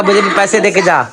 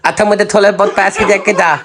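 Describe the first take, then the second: First: A teasing imitation of an angry demand for money; mock angry demand. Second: A cheeky, half-laughing imitation of her asking for money; laughing while copying her demand; mock demanding wife. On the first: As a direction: copy her sharp ask for cash, half joking. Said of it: "असल में बात जो है ना गुस्से वाली है". (नकली गुस्से में पैसे माँगना) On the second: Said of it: "नहीं, वैसे बोलना". (पत्नी की हँसते हुए नकल)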